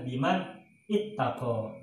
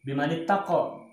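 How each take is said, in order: First: The words are split apart, each said separately. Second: The words run together, linked by an 'i' sound. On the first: "dipenggal-penggal bacanya asalnya adalah" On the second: "Kalau dibaca wasol ya"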